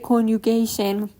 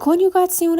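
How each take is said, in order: First: The ending is said like English '-gation'. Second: The ending is said as written, German style. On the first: The speaker calls it wrong. "اشتباهی مثل انگلیسی نگید" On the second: The speaker calls it right. "دقیقاً حروف رو به همون شکلی که بود تلفظ کردیم"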